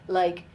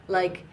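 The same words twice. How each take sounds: Both takes have the same delivery.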